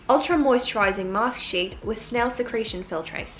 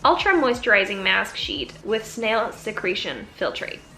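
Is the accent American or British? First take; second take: British; American. First: It is spoken in a British English accent. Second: It is spoken in an American English accent.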